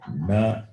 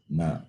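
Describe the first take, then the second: First: The tongue curls back to touch the roof. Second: The tongue touches the back of the upper teeth. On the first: "Munusuri na is, is cerebral" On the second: "Rendusuri na is dental"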